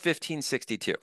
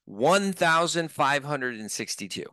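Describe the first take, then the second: First: The price is read in a shortened form. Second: The whole price is read out in full. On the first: The price sounds cheap and affordable. "when you're just giving your price to make it seem cheaper" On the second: The price sounds large and serious. "you say the entire price"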